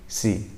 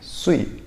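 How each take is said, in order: First: A thin, plain s with spread lips. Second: A thick s with rounded, slightly whistling lips. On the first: The speaker calls it wrong. "kalau nggak diucapkan dengan benar itu jadinya mirip si" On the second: The speaker calls it right. "agak memonyongkan mulut, kayak memecucukan mulut, ... mambu-mambu bersiulnya"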